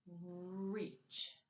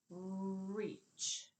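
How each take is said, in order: First: "Reach." said softer and short; soft repeat. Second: "Reach." stretched, the r pulled long; drawn-out word. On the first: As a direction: echo the clipped word quietly. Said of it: "clipped off what sound". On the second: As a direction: draw the word out of your mouth. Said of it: "Let's pull it out now". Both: Shown as a demonstration.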